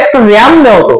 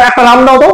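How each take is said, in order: First: "র্যাম" with the English "æ" vowel; RAM said as "ram". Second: "রাম" with an open "aa" vowel; RAM said as "raam". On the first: Teacher voices a customer at the shop, "র্যাম" with æ. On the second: Teacher voices someone asking for a person, "রাম" as raam. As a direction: say "রাম" as in the man's name. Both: Shown as a demonstration. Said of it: "ভাষাটা ঠিক করে বলতে হবে".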